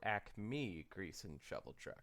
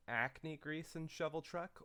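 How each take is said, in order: First: Acme said properly as "ack-mee", with a clear m; second reading. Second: Acme said like "acne", with an n sound; first reading. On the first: Contrasting the two names, reads the proper Acme. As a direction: Acme with a crisp m, as in the brand. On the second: Wondering aloud which name is meant, reads Acme like "acne". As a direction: Acme read as "ackny". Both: Shown as a demonstration. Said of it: "Did they mean".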